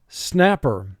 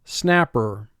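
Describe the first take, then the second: No difference in how they are said.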